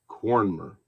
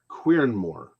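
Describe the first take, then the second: First: The name begins with a 'kor' sound. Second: The name begins with a 'kweer' sound. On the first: The speaker calls it right. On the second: The speaker calls it wrong.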